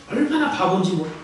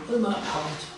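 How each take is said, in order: First: Said in the usual way. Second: Quiet aside. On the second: Acted. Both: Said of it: "repeated emphasis".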